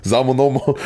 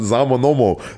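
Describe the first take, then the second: First: It is said in Saarland dialect. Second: It is said in Saarland dialect.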